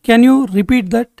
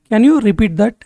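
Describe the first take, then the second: First: Slow, careful repeat for learners; slowed teaching voice. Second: Said in the usual way. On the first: Shown as a demonstration. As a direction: say it again slowly for the class. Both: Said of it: "phrase lesson, normal then slow".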